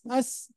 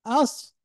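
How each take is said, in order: First: The s sound is plain and light. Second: The s sound is emphatic and heavy. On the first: The speaker calls it wrong. "لا تقل أس أس" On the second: The speaker calls it right. "والصاد قوية"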